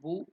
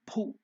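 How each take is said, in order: First: The first consonant has no puff of breath. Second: The first consonant has a strong puff of breath. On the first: The speaker calls it wrong. "It is not Bhu" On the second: The speaker calls it right. "Bha is again Mahaprana"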